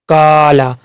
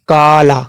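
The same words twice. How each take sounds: The two takes are said the same way.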